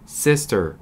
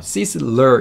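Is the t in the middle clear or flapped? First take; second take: clear; flapped. First: The middle t is pronounced clearly. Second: The middle t is softened into a flap. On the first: The speaker calls it right. "ter 발음 다 해주는 게 보통입니다" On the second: The speaker calls it wrong. "sizzler 이렇게 안 하고"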